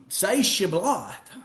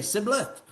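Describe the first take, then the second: First: Slow Shibboleth with a clear sh; correct sh sound. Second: Sibboleth with s in place of sh; failed sh. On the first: Acted. Gileadites testing Ephraimites, slow command with sh in Shibboleth. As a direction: give Shibboleth as a test word, hushing first sound. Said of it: "The Gileadites would tell these Ephraimites". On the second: Retold or imitated. Ephraimites failing the spoken test, Sibboleth with s. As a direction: answer Sibboleth, plain s at the start. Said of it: "They couldn't do it".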